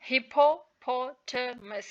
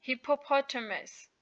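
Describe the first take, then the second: First: "hippopotamus" broken slowly into separate syllables; teacher slowly spelling out the sounds of "hippopotamus". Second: Said in the usual way. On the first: Shown as a demonstration. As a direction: sound out "hippopotamus" part by part, pausing between syllables. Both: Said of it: "with their correct pronunciation".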